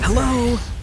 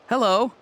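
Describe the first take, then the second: First: It sounds angry and threatening. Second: It sounds happy and cheerful.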